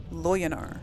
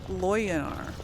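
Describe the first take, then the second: No difference in how they are said.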